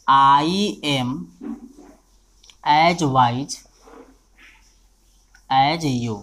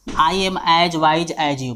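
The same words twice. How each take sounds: First: Each word set apart by long pauses; word-by-word dictation. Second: The whole sentence in one very slow run, no gaps; slow whole-sentence dictation. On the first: Teacher dictating to the class, word by word with pauses. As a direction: spell it out one word at a time, waiting between words. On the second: Teacher reading the sentence back to students, slow and even. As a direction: read it out slowly as one line. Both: Shown as a demonstration. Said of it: "मान लीजिए एक example है".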